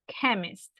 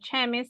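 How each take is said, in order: First: The word begins with a k sound. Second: The word begins with a ch sound. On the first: The speaker calls it right. "it's chemist, like a K" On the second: The speaker calls it wrong. "But it's not chemist"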